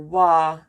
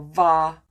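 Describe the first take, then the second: First: The word starts with a w sound. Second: The word starts with a v sound. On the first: "or wa" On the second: "or va"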